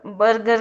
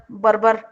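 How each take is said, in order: First: Said in the usual way. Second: "बर्बर" with b in place of g, as "barbar"; mispronounced burger. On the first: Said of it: "बर्गर को बर्बर". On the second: Retold or imitated. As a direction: imitate saying "बर्बर" for burger. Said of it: "बर्बर बोल रही है".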